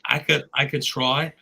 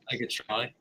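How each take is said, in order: First: Said in the usual way. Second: Soft Australian accent attempt. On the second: Shown as a demonstration. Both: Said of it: "attempting an Australian accent".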